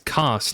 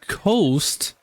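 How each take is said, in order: First: The name has a short 'o' vowel, like 'cost'. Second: The name has a long 'oh' vowel, like 'coast'. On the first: The speaker calls it right. "no, it's Cost" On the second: The speaker calls it wrong. "I don't know why I keep saying Coast"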